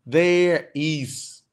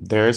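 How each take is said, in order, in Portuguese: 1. Duas palavras completas, ditas devagar e separadamente. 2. Uma palavra contraída, dita rápido e de forma fluida. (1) "ninguém fala assim, there is, né? Pausadão" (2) "É bem mais fluido"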